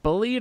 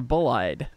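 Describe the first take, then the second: First: The second part sounds like 'ee'. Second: The second part sounds like 'eye'. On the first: "Is it Bullied or Bull-Eyed?" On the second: "Is it Bullied or Bull-Eyed?"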